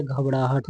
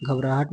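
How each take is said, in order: First: घबराहट, curled-tongue ṛaa in the middle; correct form घबड़ाहट. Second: घबराहट, tongue-tip r in raa; wrong form घबराहट. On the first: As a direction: say घबराहट with a flapped ṛ for the r. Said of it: "होता है". (घबराहट को 'घबड़ाहट' बोलकर) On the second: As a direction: say घबराहट with a plain r. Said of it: "नहीं होता है". (घबराहट, सादे 'र' के साथ) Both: Shown as a demonstration.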